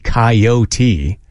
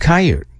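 First: The word is said with three syllables. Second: The word is said with two syllables. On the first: "For me to say coyote" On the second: "why don't I just call it a coyote? It's so quick. So much quicker"

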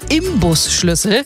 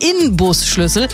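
First: The first syllable ends in an m sound. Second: The first syllable ends in an n sound. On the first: The speaker calls it wrong. "die sprechen viele Menschen ja falsch aus" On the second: The speaker calls it right. "heißt eigentlich Inbusschlüssel"

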